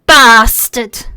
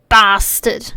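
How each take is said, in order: First: "Bastard" punched louder, drawled and spat. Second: Said in the usual way. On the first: Shown as a demonstration. Showing chat how to say a swear word, spat and drawled. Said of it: "drawl it a little bit". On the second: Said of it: "if you say it right".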